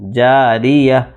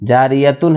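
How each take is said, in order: First: The word ends on a short -a sound. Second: The word ends with a full -tun ending. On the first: The reciter pauses at this word. The speaker calls it right. "रुक जाएंगे तो इस ता को हा से बदल देंगे" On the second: The reciter keeps going without pausing. The speaker calls it wrong. "जारियतुन है ना"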